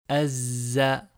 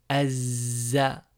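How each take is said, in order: First: The L merges into a doubled Z sound. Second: The same.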